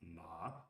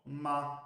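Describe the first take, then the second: First: The pitch stays low. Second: The pitch stays high and level. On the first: "the low" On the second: "the high"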